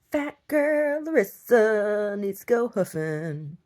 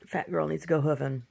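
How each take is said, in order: First: Higher, slow and drawn out with a put-on voice; mock announcement. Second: Said in the usual way. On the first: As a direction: stretch it out like a grand proclamation. Repeats her line as a performance.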